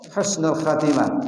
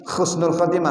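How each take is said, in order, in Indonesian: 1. Kata pertama diawali dengan bunyi h yang lembut. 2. Kata pertama diawali dengan bunyi kh yang keras. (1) "khus ha bukan kha" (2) "Jangan khusnul khatimah salah"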